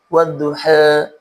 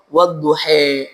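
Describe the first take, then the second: First: The final vowel leans slightly toward e. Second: The final vowel is fully shifted to e. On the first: This is a minor-inclination reading of some reciters. "membacanya dengan imalah sughra ... bunyinya bunyi bunyi e" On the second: This is a major-inclination reading of some reciters. "membacanya dengan imalah kubra"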